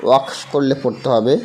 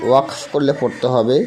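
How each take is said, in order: The two takes are said the same way.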